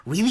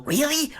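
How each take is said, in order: First: Said in the usual way. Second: Mock disbelief. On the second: Real, not acted. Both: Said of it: "Is that really a spoiler?".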